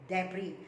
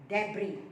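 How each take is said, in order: The two takes are said the same way.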